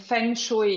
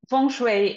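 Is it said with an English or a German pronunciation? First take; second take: German; English. First: It is said with a German pronunciation. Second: It is said with an English pronunciation.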